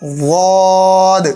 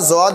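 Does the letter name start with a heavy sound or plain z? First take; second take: heavy sound; plain z. First: It starts with a heavy, distinct consonant. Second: It starts with a plain z sound. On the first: The speaker calls it right. "इनमें भी काफ़ी फ़र्क है" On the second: The speaker calls it wrong. "अक्सर लोग एक ही तरह पढ़ देते हैं"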